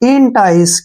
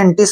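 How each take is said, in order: First: The first syllable sounds like 'in', ending 'tice'. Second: The first syllable sounds like 'en', ending 'tis'. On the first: The speaker calls it right. "E N से बन गया इन" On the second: The speaker calls it wrong. "या एंटिस नहीं पढ़ना है"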